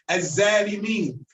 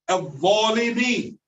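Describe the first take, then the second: First: The first consonant is pronounced like a z. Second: The first consonant is a th-like sound. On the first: The speaker calls it wrong. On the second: The speaker calls it right.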